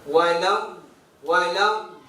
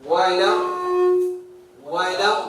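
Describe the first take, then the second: The two takes are said the same way.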